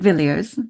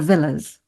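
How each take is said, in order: First: The surname is pronounced the way it is spelled. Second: The surname is pronounced like the word 'villas'. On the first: This is the spelling-based pronunciation. "some who would pronounce it Villiers, of course. Um, that's how it's spelled" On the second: This is the aristocratic circles' pronunciation. "aristocratic and from those other circles would say it as Villas"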